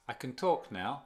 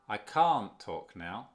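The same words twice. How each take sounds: First: "can" quick and reduced, "talk" carrying the stress; weak can, stressed talk. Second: "can't" loud, long and rounded, its T not heard; stress on can't. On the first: Teacher contrasting positive with negative, stress on "talk". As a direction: skip lightly over "can" onto "talk". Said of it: "Y la entonación cae aquí". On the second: Teacher contrasting negative with positive, stressed "can't". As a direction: lean hard on "can't" and stretch the vowel. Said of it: "No tiene nada que ver con el T". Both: Shown as a demonstration.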